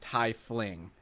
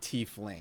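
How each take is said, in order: First: The first syllable sounds like the word 'tie'. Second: The first syllable does not sound like 'tie'. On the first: The speaker calls it right. "It is Tiefling" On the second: The speaker calls it wrong. "not Tiefling"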